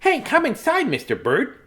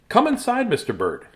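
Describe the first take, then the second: First: It is said in a put-on mouse voice. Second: It is said in a plain reading voice.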